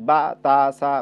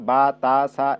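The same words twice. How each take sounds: The two takes are said the same way.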